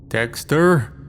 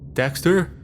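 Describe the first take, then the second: First: It is called in a put-on Irish accent, stretching the 'er'. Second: It is shouted in a plain, ordinary accent.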